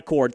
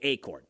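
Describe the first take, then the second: First: The name sounds like the word 'accord'. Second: The name begins with an 'ay' sound. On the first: The speaker calls it wrong. "not Accord" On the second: The speaker calls it right. "like A Y"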